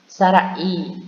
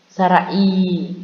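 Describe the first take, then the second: The two takes are said the same way.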